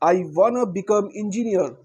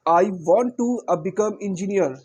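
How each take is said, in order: First: 'Want to' is shortened to 'wanna'. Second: 'Want to' is said as two full words. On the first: This is the shorter, more current form. "Short keys में करें" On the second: This is the older form. "वॉन्ट टू"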